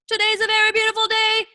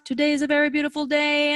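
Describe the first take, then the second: First: It is spoken higher and excited. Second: It is spoken lower and calmer.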